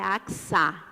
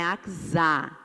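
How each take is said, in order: First: The middle consonant is a plain s sound. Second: The middle consonant is voiced like a z. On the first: The speaker calls it right. "é Axa" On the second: The speaker calls it wrong. "não é Axá. Por que não é Axá? ... para S ter som de Z, precisa estar entre duas vogais"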